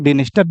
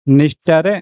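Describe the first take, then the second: First: The name begins with a D sound. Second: The name begins with an N sound. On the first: "कोई लोग इसको डिनिस्टर भी कहते हैं" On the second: "एन से पहले डी आपका साइलेंट हो गए हैं"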